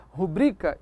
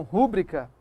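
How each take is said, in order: First: "rubrica" stressed on the middle syllable, ru-BRI-ca; careful ru-BRI-ca for "rubrica"; correct stress. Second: "rúbrica" stressed on the first syllable, RU-bri-ca; wrong stress. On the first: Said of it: "Eu devo dizer". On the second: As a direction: punch the RU of "rúbrica". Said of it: "e não rúbrica". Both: Shown as a demonstration.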